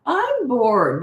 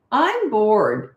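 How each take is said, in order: First: Whining "I'm bored", a little higher; whiny and snotty. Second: Put-on bratty, complaining kid's "I'm bored"; snotty. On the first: Retold or imitated. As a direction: stretch "I'm bored" into a bratty whine. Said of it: "that whiny, snotty tone". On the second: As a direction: toss off "I'm bored" like a sulky child. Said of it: "in that snotty tone".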